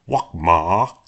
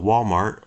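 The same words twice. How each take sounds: First: It is said in an imitated, different pronunciation. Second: It is said in an ordinary pronunciation.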